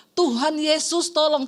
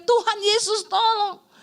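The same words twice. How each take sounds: First: Slow, restrained retelling of a plea; retold cry for help. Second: High, drawn-out mock yell for help; retold shout. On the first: Wife repeating husband's plea to Jesus, restrained retold cry. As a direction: quote the plea without really shouting. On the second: Wife imitating husband seeing the speeding car, retold shout. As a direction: cry it out slowly, pitched up. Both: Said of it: "Makanya dia teriak".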